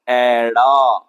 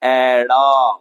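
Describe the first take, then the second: Both takes have the same delivery.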